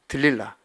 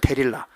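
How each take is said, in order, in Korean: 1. 이름은 'deul' 음절로 시작합니다. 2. 이름은 'de' 음절로 시작합니다. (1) "들릴라라고 발음해도 돼" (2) "데릴라라고 발음해도 되고"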